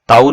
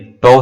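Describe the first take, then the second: First: The word ends in an 'ow' vowel sound. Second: The word ends in an 'oh' vowel sound. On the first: The speaker calls it wrong. "ताऊ नहीं है ये" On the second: The speaker calls it right. "टो है"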